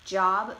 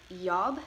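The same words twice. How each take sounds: First: Said in the usual way. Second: "yob" for job, opening on a y. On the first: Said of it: "job may sound like yob". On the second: Shown as a demonstration. Presenter showing Chicano English, "yob" with y replacing j. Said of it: "distinctions between the J and Y sounds".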